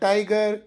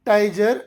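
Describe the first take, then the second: First: The middle consonant is a hard g sound. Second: The middle consonant is a j sound. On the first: The speaker calls it right. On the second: The speaker calls it wrong. "ಟೈಜರ್ ಅಲ್ಲ"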